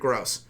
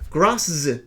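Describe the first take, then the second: First: The name ends plainly with an s sound. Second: The name ends with an added 'zee' sound. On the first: The speaker calls it right. "the name is pronounced Jared Gross" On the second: The speaker calls it wrong. "How the fuck am I supposed to pronounce that?"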